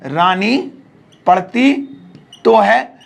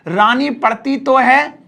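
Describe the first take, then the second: First: "रानी / पढ़ती / तो है" in separate pieces; word by word. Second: Said in the usual way. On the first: Shown as a demonstration. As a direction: pause after "Rani" and after "पढ़ती". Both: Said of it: "जैसे मैंने कहा".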